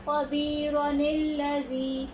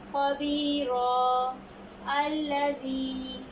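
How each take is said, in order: First: The words run together with a linking 'ni' sound. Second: The first word ends in 'a' before a stop. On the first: "अगर हम बीच में वक़्फ़ नहीं कर रहे तो हम मिला के इस तरह पढ़ेंगे" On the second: "वक़्फ़ करने की सूरत में नून कुतनी को नहीं पढ़ेंगे"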